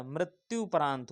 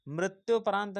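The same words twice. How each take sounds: First: मृत्युपरांत with उ after मृत्य; correct pronunciation. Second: मृत्योपरांत with ओ after मृत्य; wrong pronunciation. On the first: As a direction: say मृत्युपरांत clearly with उ. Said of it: "मृत्युपरांत होता है". (सही उच्चारण मृत्युपरांत) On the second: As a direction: say मृत्योपरांत as the mistaken form. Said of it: "मृत्योपरांत नहीं होता". (गलत उच्चारण मृत्योपरांत) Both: Shown as a demonstration.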